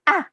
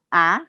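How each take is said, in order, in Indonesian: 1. Diucapkan dengan tegas, seperti seruan marah. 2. Diucapkan dengan ragu-ragu, tanpa ketegasan. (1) "itu tidak boleh ragu-ragu" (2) "nggak boleh"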